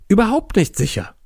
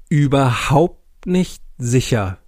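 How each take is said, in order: First: Hammy stage actor. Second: Slow, grave theatrical delivery; hammy stage actor. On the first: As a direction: proclaim it like a tragic actor. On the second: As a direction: declaim it with mock gravity. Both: Acted. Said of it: "voller theatralischer Gravitas".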